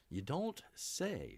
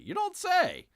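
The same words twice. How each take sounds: First: Deadpan. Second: High, mock-amazed sarcastic "You don't say.". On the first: Acted. Repeats the sarcastic reply. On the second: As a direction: pitch "You don't say." way up in fake surprise. Sarcastic reply to news item.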